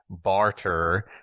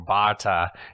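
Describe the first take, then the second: First: It is said in a Southern US accent. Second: It is said in an Australian accent.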